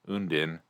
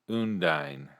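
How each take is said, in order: First: The last syllable sounds like 'din' in dinner. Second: The last syllable sounds like the word 'dine'. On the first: "din, Undin, as in dinner" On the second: "Dine, Undine"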